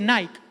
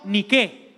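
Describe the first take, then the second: First: The name is said with an English pronunciation. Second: The name is said with a Greek pronunciation. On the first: The speaker calls it wrong. "no se dice Nike, esos son los gringos que no saben hablar" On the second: The speaker calls it right. "Se dice en griego Nike"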